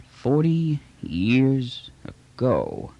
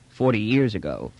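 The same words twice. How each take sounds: First: Drawn out slowly and thoughtfully; slow, musing echo. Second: Said in the usual way. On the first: Acted. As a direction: let each word hang, lost in thought. Trader echoes, musing.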